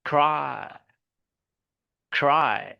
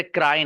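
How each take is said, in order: First: "क्राई" as "khrai", airy k and smooth r; English pronunciation. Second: "क्राई" with tapped r and plain k; wrong Urdu R. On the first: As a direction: breathe out on the k of "क्राई", no tapped r. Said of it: "इसी तरीके से क्राई नहीं". (हवा वाले क से "क्राई") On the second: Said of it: "क्राई नहीं". ("क्राई" देसी र के साथ) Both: Shown as a demonstration.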